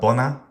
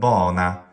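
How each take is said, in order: First: Both syllables are short. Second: The first syllable is long, the second short. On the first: The speaker calls it right. "classical Latin" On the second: The speaker calls it wrong. "the incorrect trochee pronunciation, long followed by short"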